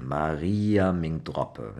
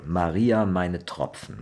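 First: "Maria Ming Droppe" drawn out in Rhineland dialect; Lower German dialect. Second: "Maria meine Tropfen" slowly, with pf and final n in Tropfen; High German pronunciation. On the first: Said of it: "you actually speak, uh, Lower German". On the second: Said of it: "Higher German you would say". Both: Shown as a demonstration.

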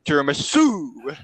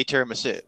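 First: TIRAMISU drawn out slowly, rising; Boris's imagined pronunciation. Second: Said in the usual way. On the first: Retold or imitated. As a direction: stretch the last syllable of TIRAMISU. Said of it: "Would he say, like". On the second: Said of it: "how does he say tiramisu?".

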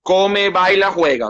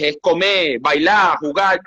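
First: "come, baila, juega" each stressed on its first syllable; Venezuelan first-syllable stress. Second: "comer, bailar, jugar" with the last syllable of each punched; Argentine final-syllable stress. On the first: Showing the host his own criollo stress, first syllable stressed. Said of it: "no me van a cambiar mi sílaba tónica criollita". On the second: Showing the host how Argentines stress verbs, final-syllable stress. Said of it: "aquí tienen la sílaba tónica al revés". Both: Shown as a demonstration.

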